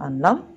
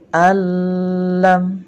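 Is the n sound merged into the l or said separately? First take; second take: separate; merged. First: The n is pronounced clearly before the l. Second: The n merges fully into the l sound. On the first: The speaker calls it wrong. "Jadi bacanya bukan anlam" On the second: The speaker calls it right. "melainkan alam"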